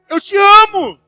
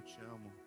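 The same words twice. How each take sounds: First: It is said harshly, with irritation. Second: It is said tenderly and lovingly.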